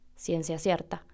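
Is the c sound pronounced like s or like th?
s. The c sounds are pronounced like s. This is how the speaker's own region says it. "Si yo quiero decir ciencia cierta, digo"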